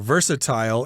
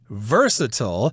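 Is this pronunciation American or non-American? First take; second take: non-American; American. First: It is said with a non-American pronunciation. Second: It is said with an American pronunciation. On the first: "You'll hear versatile in other parts of the world" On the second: "That's the American pronunciation"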